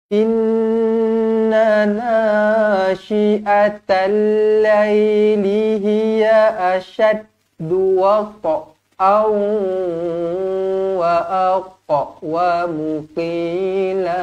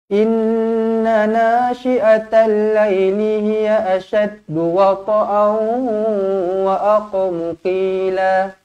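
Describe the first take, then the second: First: The verse is recited slowly, word by word. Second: The verse is recited quickly, at a brisk pace. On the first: "ustaz ni baca satu-satu-satu" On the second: "Contoh bacaan laju tapi tajwid jaga"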